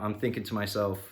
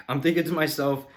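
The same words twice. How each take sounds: First: Said in the usual way. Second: Sighed, higher and louder, fed up; exasperated sigh. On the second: Retold or imitated. Annoyed customer sighing over the mechanic who vanished, exasperated. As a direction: let it out on a weary sigh.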